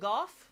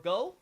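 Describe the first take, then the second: First: The name ends with an f sound. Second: The name ends on an open vowel. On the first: This is the English version's pronunciation. "the English pronounces it Goff" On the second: This is the Japanese version's pronunciation. "It's pronounced in the Japanese like Go"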